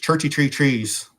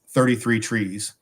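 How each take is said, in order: First: It is said in a Cork accent. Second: It is said in the speaker's usual accent.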